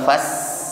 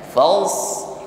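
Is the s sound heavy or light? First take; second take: light; heavy. First: The s sound is light and thin. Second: The s sound is heavy and thick. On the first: The speaker calls it wrong. "Kalau fas ringan seperti ini itu sin" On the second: The speaker calls it right. "fals itu kan tebal ya"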